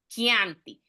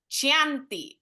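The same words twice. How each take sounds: First: The word begins with a 'k' sound. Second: The word begins with a 'ch' sound. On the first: The speaker calls it right. "vamos a decir como que llevamos una K en la palabra" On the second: The speaker calls it wrong. "Ya no me van a decir Chianti o Chantilly"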